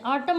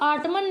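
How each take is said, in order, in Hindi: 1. अंतिम n ध्वनि मौन रहती है। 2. अंतिम n ध्वनि का उच्चारण होता है। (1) "ऑटम बोलते हैं" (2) "ऑटमन नहीं बोलते हैं"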